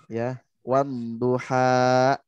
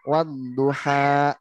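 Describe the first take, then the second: First: Slow "wan duha" with no push at the end; level ending. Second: Slow "wadduha" with a push on the final "ha"; pushed ending. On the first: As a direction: let "duha" stay flat and fade, no glottal stop. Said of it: "teacher models the verse ending". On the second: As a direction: stretch "wadduha" and give the last syllable a sudden push, adding a glottal stop. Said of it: "Kalau digas di ujungnya". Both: Shown as a demonstration.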